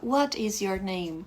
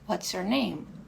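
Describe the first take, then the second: First: Both words what and is are said separately. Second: What and is merge into one contracted word. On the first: It sounds overly emphatic and not like a native. The speaker calls it wrong. "tá dando muita ênfase, digamos assim. E não é um jeito natural" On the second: It is the usual everyday way to ask. The speaker calls it right. "é mais fácil ouvir"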